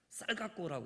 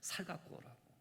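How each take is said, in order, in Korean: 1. 첫 단어는 경음의 강한 s로 시작해요. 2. 첫 단어는 평음의 부드러운 s로 시작해요. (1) "해야 되는데" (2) "어떤 사람들은 살 얘기잖아요"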